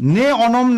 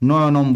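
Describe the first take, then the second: First: The two parts are kept separate. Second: The two parts are joined into one. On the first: The speaker calls it wrong. "নে অনম এভাবে উচ্চারণ করা যাবে না" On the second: The speaker calls it right. "সন্ধি করে নয়নম বলতে হবে"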